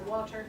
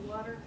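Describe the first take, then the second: First: It is said with a British accent. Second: It is said with an American accent. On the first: "In England, people say water" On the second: "but here we say water"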